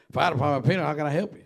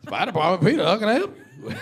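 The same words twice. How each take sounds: First: Quick New England phone greeting, fast and louder; answering the fire department phone in a New England accent. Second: Louder, higher New England greeting through laughter; repeated New England accent. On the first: Young firefighter answers the station phone in New England accent. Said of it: "in my northern New England accent". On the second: Firefighter repeats the New England phone greeting, laughing. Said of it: "What'd you say?". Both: Retold or imitated.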